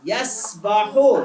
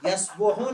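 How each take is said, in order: First: The middle vowel is an 'a' sound. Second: The middle vowel is a 'u' sound. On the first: The speaker calls it right. "लेकिन यहाँ पे सबाहा यस्बाहो" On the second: The speaker calls it wrong. "यस्बोहो नहीं है"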